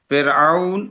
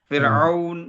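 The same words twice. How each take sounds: The two takes are said the same way.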